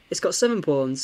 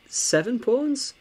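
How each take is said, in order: First: Said in the usual way. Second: Seven pawns? rising high and drawn out slowly; surprised question. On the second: Real, not acted. Counting pawns in disbelief.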